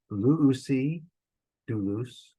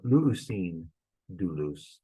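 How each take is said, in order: First: "luusi doulos" read slowly, "luusi" ending on a clear open i with no n; Greek without nu. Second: "luusin doulos" read slowly, "luusin" ending on a clear n sound; Greek with nu. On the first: Teacher to Greek class, showing the form without nu, clearly spoken. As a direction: say "luusi" with no final n before "doulos". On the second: Teacher to Greek class, showing the form with extra nu, clearly spoken. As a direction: add the final n to "luusin" before "doulos". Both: Shown as a demonstration. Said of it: "is correct".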